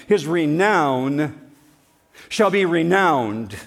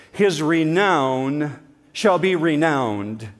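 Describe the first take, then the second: First: Slow and louder, each word weighted; burn every word in, slowly; drawn-out proclamation; slow emphatic. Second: Slow, weighty delivery; solemn emphatic reading. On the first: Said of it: "burn it into your mind". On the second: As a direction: stretch out each word. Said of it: "here's a good Hebrew summary". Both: Shown as a demonstration.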